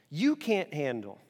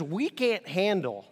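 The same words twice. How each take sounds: First: Slow, with the word "you" leaned on; "you" carries the weight, the rest falls away; stress on you. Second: Slow, with the word "We" leaned on; "We" carries the weight, then a pause; stress on We. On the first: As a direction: stress the pronoun "you", slowly. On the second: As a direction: stress the pronoun "We", slowly. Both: Shown as a demonstration.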